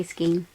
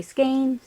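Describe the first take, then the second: First: Singular "skein" with no final s; "skein" said with no z at the end; pron. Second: Plural "skeins" with final s; "skeins" said with a z at the end; pron. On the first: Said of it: "but I say skein". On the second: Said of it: "Some people say skeins". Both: Shown as a demonstration.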